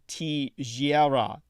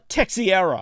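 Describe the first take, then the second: First: The name is said with a Portuguese pronunciation. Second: The name is said with an American pronunciation. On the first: "a Portuguese name" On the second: "if you're an American, you'd probably say"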